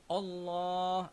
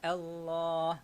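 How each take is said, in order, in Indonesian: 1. Vokal pertama itu berat dan gelap. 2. Vokal pertama itu ringan dan jelas. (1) "Hamzah sini kita tak boleh baca dia Allah" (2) "hamzah dekat situ kita tak boleh nak tebalkan"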